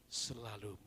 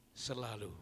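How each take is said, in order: Both takes have the same delivery.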